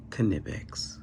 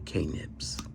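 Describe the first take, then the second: First: The name is said in full, ending in 'ex'. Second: The name is shortened, ending in 'nips'. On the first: "I do know you pronounce it Knipex" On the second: "but I like to say K-nips"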